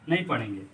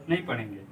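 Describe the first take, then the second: The two takes are said the same way.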